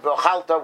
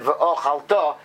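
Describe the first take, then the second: First: Ve'ochalta with stress moved off the final "ta" onto "chal"; wrong stress. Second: Ve'ochalta with a light lengthened "o" and main stress on final "ta"; slow ve'ochalta, "o" drawn out, landing on the end; semi-stress on beginning. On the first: Teacher showing the misreading that changes the meaning, misplaced stress. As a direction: hit "chal" in ve'ochalta, leaving the ending weak. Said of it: "and not ve'ochalta, which changes the meaning".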